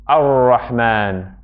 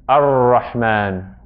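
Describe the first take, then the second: Both takes have the same delivery.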